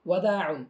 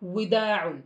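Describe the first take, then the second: First: The first vowel sounds like 'a'. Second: The first vowel sounds like 'i'. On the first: The speaker calls it right. "সঠিকটি হচ্ছে ওয়াদাউন" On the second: The speaker calls it wrong. "অথচ এটি সঠিক নয়"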